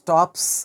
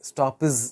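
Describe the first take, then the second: First: The final sound is a hissing s. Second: The final sound is a buzzing z. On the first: The speaker calls it right. "స్టాప్స్ అనాలి" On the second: The speaker calls it wrong. "స్టాప్స్ అనకూడదు"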